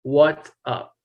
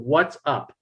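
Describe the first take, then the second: First: Each word is said clearly and separately. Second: Each word is said clearly and separately.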